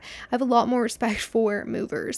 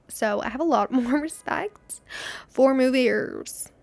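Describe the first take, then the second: First: Said in the usual way. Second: Questioning lift, then slow drawn-out "for movers"; odd intonation. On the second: Real, not acted. Vlogger telling viewers about carrying boxes upstairs, odd intonation. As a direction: respect for movers in an odd, stretched tune. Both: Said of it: "Why did I say it like that?".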